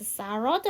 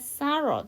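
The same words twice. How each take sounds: First: The voice rises at the end. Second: The voice falls at the end.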